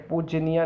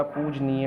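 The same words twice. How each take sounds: First: पूजनीय ending in an open "ni-yaa"; wrong ending. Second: पूजनीय drawn out, ending "nee-ye"; corrected ending. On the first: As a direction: open the last vowel of पूजनीय. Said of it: "पूजनीय होता है". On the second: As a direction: say पूजनीय slowly with a long "nee". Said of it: "पूजनीय नहीं होता". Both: Shown as a demonstration.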